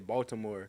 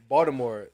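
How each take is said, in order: First: It is said in a non-local accent. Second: It is said in the local Baltimore accent.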